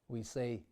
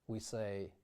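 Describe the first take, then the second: Both takes have the same delivery.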